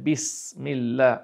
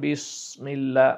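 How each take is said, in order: First: The s is said light and plain. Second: The s is said heavy, with tongue raised. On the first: The speaker calls it right. "আপনাকে উচ্চারণ করতে হবে বিসমিল্লাহ" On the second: The speaker calls it wrong. "সদ দিয়ে করেন বিসমিল্লাহ, ভারী হয়ে গেল"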